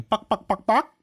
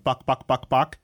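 First: High, squeaky mock chicken cluck. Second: A hint of chicken clucking; lightly clucking chicken. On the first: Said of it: "He got pretty good at going". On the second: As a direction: barely mimic the cluck.

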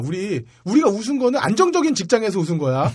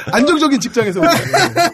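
First: 안정적인 pressed with a laugh; stress on 안정적인. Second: 거야 hit high and loud, laughing; stress on 거야. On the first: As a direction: lean on 안정적인 while laughing. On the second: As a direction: insist on 거야 with a laugh. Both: Shown as a demonstration. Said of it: "요거는 확실히 하고 가야".

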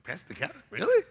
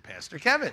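First: Incredulous question. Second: Said in the usual way. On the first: Retold or imitated. Dad doubting son's choice of Pastor Kevin, incredulous. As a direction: repeat the name in disbelief, jumping up on "Really". Surprised echo of son's answer.

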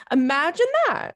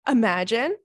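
First: Raised, sarcastic "imagine that"; mock disbelief. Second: Said in the usual way. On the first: Mocking the bare minimum text.

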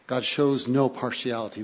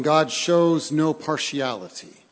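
First: Quieter, stress moved to "no"; softer restatement. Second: Slow, loud, stress on "shows"; "shows" leaned on hard and drawn out; emphatic proclamation. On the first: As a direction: lean on "no" gently, softer take. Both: Shown as a demonstration.

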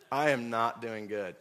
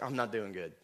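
First: "I am not" spelled out, each word weighted; emphatic restatement. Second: Said in the usual way. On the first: Retold or imitated. Repeats the complaint emphatically.

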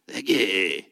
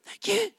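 First: Dropped low, muffled thank you; a deep put-on thanks. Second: Thin squeaky high thank you; a small squeaked-up thanks. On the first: Pastor showing the other thank you, low and muffled. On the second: Pastor showing a weak thank you, squeaked high. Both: Shown as a demonstration. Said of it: "Doesn't sound even cool".

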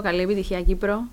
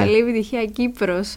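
First: Κύπρο ending on an open ο, no final s; Κύπρο without s. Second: Κύπρος closed with a clear final s. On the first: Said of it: "Ποιος είναι ο Κύπρος". («Κύπρο» χωρίς τελικό σίγμα) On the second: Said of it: "να πούμε ότι είναι Κύπρος". («Κύπρος» με καθαρό τελικό σίγμα) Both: Shown as a demonstration.

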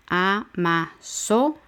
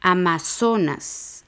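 First: Amazonas split as A, MA, SO, NAS with pauses; syllable by syllable. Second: Amazonas with SO stressed and drawn out; stress on penultimate syllable. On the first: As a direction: count out Amazonas in four separate syllables. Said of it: "Son cuatro sílabas". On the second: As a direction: lean on the SO in Amazonas. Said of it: "la penúltima sílaba es so". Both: Shown as a demonstration.

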